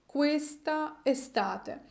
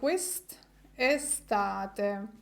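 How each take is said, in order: First: Both vowels are pronounced, questa then estate. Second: The final vowel of questa is dropped.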